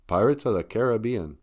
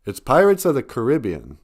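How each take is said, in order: First: "Caribbean" stressed on BE: CARE-uh-BEE-un; pronunciation variant. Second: "Caribbean" stressed on RIB: kuh-RIB-ee-un; pronunciation variant. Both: Shown as a demonstration. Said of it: "How do you say that?".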